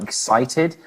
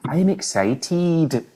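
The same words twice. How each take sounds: First: Said in the usual way. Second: "excited" slowed right down, Scottish accent, ending on a crisp teed; Scottish accent, drawing out the -ted of "excited". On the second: Shown as a demonstration. Telling cohost how Scots say excited, slow Scottish accent. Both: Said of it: "if you say any word with, like, an E D on the end".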